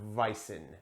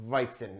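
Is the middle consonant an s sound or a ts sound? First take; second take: s; ts. First: The middle consonant is an s sound. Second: The middle consonant is a ts sound. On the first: The speaker calls it wrong. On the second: The speaker calls it right. "Z's in German make kind of a T S sound"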